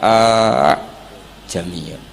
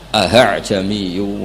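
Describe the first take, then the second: First: The two hamzas are merged into one. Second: The second hamza is softened, not fully stopped. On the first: "kemungkinannya kita baca idgham"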